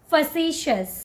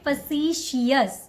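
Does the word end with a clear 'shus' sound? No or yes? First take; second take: yes; no. First: The ending is said as 'shus'. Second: The ending is not said as 'shus'. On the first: The speaker calls it right. "the correct way to say this word is facetious. Shus, shus" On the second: The speaker calls it wrong. "Don't call it facetious"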